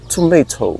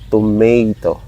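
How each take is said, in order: First: It is British, with a crisp t. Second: It is spoken with a Filipino accent. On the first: "She taught me to pronounce this as tomato... very enunciated the T" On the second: "Here in the Philippines, Filipinos uh, tend to say tomato"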